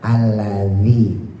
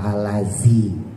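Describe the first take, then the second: First: The middle consonant sounds like dh. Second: The middle consonant sounds like z. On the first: The speaker calls it right. "za ujung lidah keluarin, tempelin ke gigi atas" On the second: The speaker calls it wrong. "bukan alazi"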